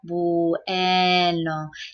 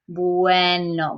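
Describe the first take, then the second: First: The sounds glide together but drawn out slowly. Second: The sounds flow smoothly together at normal speed.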